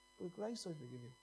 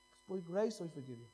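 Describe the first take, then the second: First: Softly, letting the line sink in; hushed repetition. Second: Said in the usual way. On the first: Real, not acted. Preacher repeats God's forgiveness to the congregation, hushed. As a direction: say it quietly, almost to yourself.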